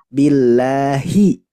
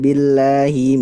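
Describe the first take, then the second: First: The final hi syllable is said clearly. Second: The final hi syllable is weak and swallowed. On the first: The speaker calls it right. "Hi-nya harus jelas Ibu" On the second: The speaker calls it wrong. "Tidak billahi minas"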